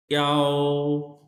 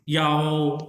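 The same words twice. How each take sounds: First: याओ stretched out very slowly, each part long; slow drawn-out demo. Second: याओ with a light ई gliding at once into आओ; touch the ई lightly, then straight to आओ; quick glide demo. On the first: Teacher first models याओ very slowly for the student. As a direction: drag याओ out slowly sound by sound. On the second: Teacher corrects the student, gliding याओ quickly. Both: Shown as a demonstration. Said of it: "ई हल्का सा pronounce करके फौरन आओ पे आना है".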